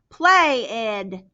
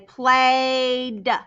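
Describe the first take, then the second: First: The ending is an extra syllable, ed. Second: The ending is a plain d sound. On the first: The speaker calls it wrong. "I don't say play ed" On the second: The speaker calls it right. "ed is making the d sound"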